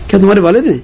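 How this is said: It is said with a tone of surprise. The speaker is astonished that this is the father. "تعجب بھی ہو سکتا ہے"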